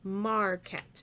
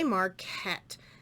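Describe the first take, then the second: First: The second vowel is reduced to a weak schwa. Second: The second vowel is a full, clear short e. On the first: The speaker calls it right. "this vowel is in an unstressed syllable. And what happens is it's called the schwa sound" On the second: The speaker calls it wrong. "We don't say marquette"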